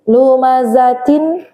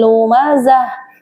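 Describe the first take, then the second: First: The word ends with a t and vowel. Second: The word ends with an h sound.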